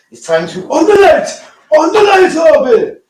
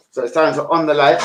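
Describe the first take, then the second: First: High, loud call across the house; loud call to switch on the light. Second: Said in the usual way. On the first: Real, not acted. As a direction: shout it out to Harvey. Calling out to Harvey.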